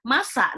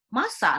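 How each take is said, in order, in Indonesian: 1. Kata itu diucapkan dengan penekanan kuat yang ditekan. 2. Kata itu diucapkan datar tanpa tenaga tambahan.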